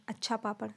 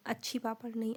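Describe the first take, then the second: First: Said in the usual way. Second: अच्छी पापड़ said as the wrong feminine form, then rejected; teacher says अच्छी पापड़ to show the error; wrong form on purpose. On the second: Shown as a demonstration. शिक्षक छात्रों को गलत रूप दिखाते हुए, अच्छी पापड़ गलत उच्चारण.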